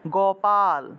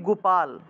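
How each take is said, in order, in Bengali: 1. প্রথম স্বরধ্বনিটির উচ্চারণ 'o'-এর মতো। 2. প্রথম স্বরধ্বনিটির উচ্চারণ 'u'-এর মতো। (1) "এটা হলো ওকার" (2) "আমরা তো আসলে গয়ের সুকার দিয়ে উচ্চারণ করে ফেলি"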